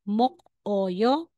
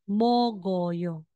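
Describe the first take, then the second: First: A k ends the first syllable, then a break. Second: A g sound links smoothly into the next syllable. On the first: The speaker calls it wrong. "instead na sasabihin mong mok-oyo" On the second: The speaker calls it right. "magiging mogoyo"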